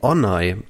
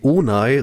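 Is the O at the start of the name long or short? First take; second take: short; long. First: The first O is said short. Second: The first O is said long. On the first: The speaker calls it right. "Das O wird kurz ausgesprochen" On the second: The speaker calls it wrong. "der heißt auch nicht Belit Onay"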